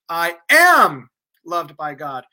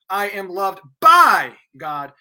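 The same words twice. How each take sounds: First: The stress is on the word am. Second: The stress is on the word by.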